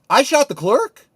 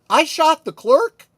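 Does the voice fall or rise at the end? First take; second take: rise; rise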